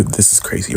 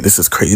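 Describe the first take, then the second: First: Unvoiced whisper of this is crazy; hushed disbelieving whisper. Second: Said in the usual way. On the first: Real, not acted.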